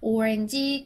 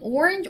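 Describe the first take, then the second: First: It is said with a flat, Korean-style pronunciation. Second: It is said with an affected, English-like pronunciation. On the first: The speaker calls it wrong. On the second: The speaker calls it right.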